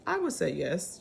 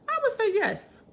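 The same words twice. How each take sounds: First: Said in the usual way. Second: I would say yes, much higher, enthusiastic; emphatic yes. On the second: Real, not acted. Answering if locals are welcoming, high emphatic yes. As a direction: pop the answer up high and bright.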